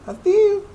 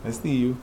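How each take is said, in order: First: Much higher, sing-song; teasing the statue in a high voice; high playful tease. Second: Said in the usual way. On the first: Pretend. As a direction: squeak it at the statue.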